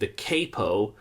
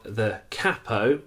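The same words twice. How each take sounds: First: Capo is said in an American accent. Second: Capo is said in a non-American accent.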